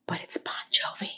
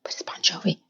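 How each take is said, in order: First: Breathy stage whisper aside. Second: Hushed secret whisper. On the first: Host whispering the song name to viewers. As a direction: whisper it like a secret. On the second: Host whispering the song name again. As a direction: drop to a whisper for the joke. Repeats whispered [name] aside. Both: Acted.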